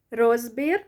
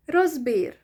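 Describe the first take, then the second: First: "розбір" with a long, loud РОЗ, rising at the end; stress on the O. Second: "Розбір" with weight on БІР, falling; stress on the I. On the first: Teacher shows first option for analysis, stress on the O. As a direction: hit the first syllable of "розбір". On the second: Teacher shows second option for analysis, stress on the I. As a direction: lean on the final syllable of "Розбір". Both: Shown as a demonstration. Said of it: "either on the O or the E".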